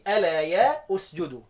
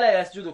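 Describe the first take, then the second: First: The words are split, with 'ya' set apart. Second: The words run together as one smooth unit. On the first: This shows the underlying parts of the reading. "زي ما بالكتابه بالطريقه دي" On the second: This is how the reading sounds when recited normally. "تسمعها الا يسجدوا كده"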